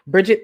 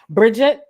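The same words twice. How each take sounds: First: The name is said in a normal accent. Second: The name is said in a put-on accent.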